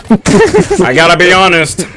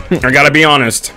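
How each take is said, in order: First: Put-on voice. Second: Said in the usual way. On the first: Put-on voice then plain repeat.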